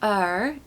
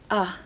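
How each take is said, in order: First: The ending is said with an R sound. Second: The ending is said as a soft schwa. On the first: The speaker calls it wrong. "it's not er" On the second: The speaker calls it right. "it's uh"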